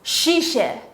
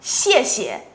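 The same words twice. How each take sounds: First: Each syllable starts with a retroflex sh sound. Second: Each syllable starts with a flat-tongue x sound. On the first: The speaker calls it wrong. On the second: The speaker calls it right.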